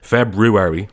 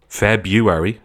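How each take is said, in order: First: The first R is pronounced clearly. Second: The first R is left out entirely. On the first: "like me, emphasizing the R" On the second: "ignoring the R entirely"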